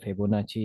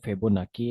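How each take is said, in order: First: The name ends with a soft 'chee' sound. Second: The name ends with a hard 'kee' sound. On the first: "या फेबोनाची है" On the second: "या तो फेबोनाकी है"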